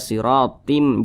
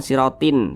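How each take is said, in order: First: The final sound is changed to m. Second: The final sound is kept as n. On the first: The speaker calls it right. "Jadi dibaca siratim" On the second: The speaker calls it wrong. "jangan sirotin"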